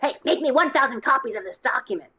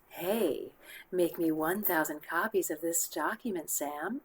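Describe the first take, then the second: First: It sounds mean and harsh. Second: It sounds flirtatious and suggestive.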